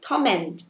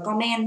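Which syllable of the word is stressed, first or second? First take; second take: first; second. First: The stress is on the first syllable. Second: The stress is on the second syllable. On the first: The speaker calls it right. "chúng ta sẽ có trọng âm của từ đấy là thứ nhất" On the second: The speaker calls it wrong. "các bạn đừng đọc là comment nha"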